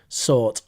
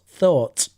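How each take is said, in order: First: The word begins with an s sound. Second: The word begins with a th sound. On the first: The speaker calls it wrong. "not sought" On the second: The speaker calls it right. "Th, thought"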